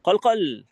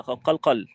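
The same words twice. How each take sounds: First: Said in the usual way. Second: Louder قلقل. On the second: Shown as a demonstration. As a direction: say قلقل louder, with the qalqala bounce. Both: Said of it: "علي صوتك كده".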